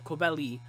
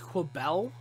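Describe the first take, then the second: First: The name ends with an extra 'ee' sound. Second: The name ends without an extra 'ee' sound. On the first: The speaker calls it wrong. "I actually mispronounced my name a few times" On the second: The speaker calls it right. "when I actually learned that it was Quabel"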